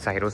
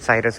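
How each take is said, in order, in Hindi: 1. नाम 'ros' की आवाज़ से खत्म होता है। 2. नाम 'rus' की आवाज़ से खत्म होता है। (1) "कोई साइरोस भी बोलता है" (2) "साइरस भी कोई बोलता है"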